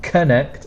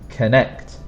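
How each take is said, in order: First: The stress is on the first syllable. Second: The stress is on the second syllable. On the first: The speaker calls it wrong. "It's not connect" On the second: The speaker calls it right. "try to make the second sound stronger"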